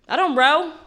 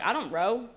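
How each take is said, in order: First: God repeating the refusal higher and louder; insistent God. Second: Relaxed, offhand God refusing to row; laid-back God. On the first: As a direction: insist on "I don't row", punching it. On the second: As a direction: say it like you're lounging in the boat. God voiced in boat story. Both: Retold or imitated.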